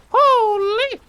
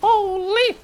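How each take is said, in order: First: Even higher, louder squeal; amazed shriek. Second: Very high, loud delighted squeal; amazed shriek. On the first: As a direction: scream it in delight. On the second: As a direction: shriek with disbelief. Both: Real, not acted. Amazed at loot.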